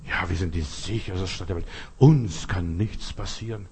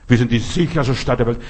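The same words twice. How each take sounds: First: Tiefer, leiser, langsamer Hohn; sarkastisch nachgeäfft. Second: Lauter, empörter Nachsatz mit Betonung auf „Wir“; empörtes Zitat. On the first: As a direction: das Gerede der Leute leise verhöhnen. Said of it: "Wenn die Leute so reden". (spöttisch leise über die Leute, die so reden) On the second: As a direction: das Zitat laut und ungläubig hinwerfen. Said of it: "ich verstehe den Bürgermeister nicht". (empört über den Bürgermeister, laut zitiert) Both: Retold or imitated.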